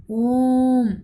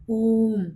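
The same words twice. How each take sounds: First: ओम held long, louder, like a chant; प्लुत ओम. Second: ओम with the ओ drawn out slowly; प्लुत ओम. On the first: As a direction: ring out ओम with a long ओ. (ओम को ज़ोर से लंबा खींचकर) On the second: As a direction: stretch the ओ in ओम long. (ओम का ओ देर तक खींचकर) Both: Shown as a demonstration. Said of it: "उच्चारण देर तक किया जा रहा है".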